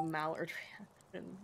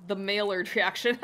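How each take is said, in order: First: "mallard reaction" said like the duck, MAL-erd; "mallard" pronounced as the bird; wrong pronunciation. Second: "Maillard" said my-YARD, louder; "The Maillard reaction" corrected, French-style; correct pronunciation. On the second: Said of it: "Um, maybe the mallard reaction". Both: Shown as a demonstration.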